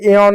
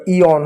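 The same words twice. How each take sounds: First: एऑन with an opening "ay" vowel; wrong E-on reading. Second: इऑन with an opening "ee" vowel; correct I-on reading. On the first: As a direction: say एऑन starting on "ay", as the mistaken reading. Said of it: "ये एऑन नहीं होगा". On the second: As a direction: say इऑन as "ee" plus "on". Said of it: "इऑन होगा". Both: Shown as a demonstration.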